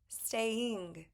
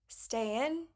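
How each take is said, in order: First: The ending is a full 'ing' sound. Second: The ending is a short 'in' without the g. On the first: The speaker calls it right. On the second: The speaker calls it wrong.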